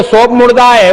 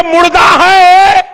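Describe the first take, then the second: First: Said in the usual way. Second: Emphatic shout. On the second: Retold or imitated. Preacher booms the sermon's key line to the crowd, shouting slowly. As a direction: drag it out like a proclamation.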